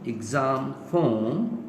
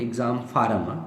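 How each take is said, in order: First: Form is said with a long 'o' and no r. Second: Form is said with an 'ar' sound and r. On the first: The speaker calls it right. "it shuld be pronounce as फोम" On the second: The speaker calls it wrong. "जब होता है तो हम कहते हैं कि"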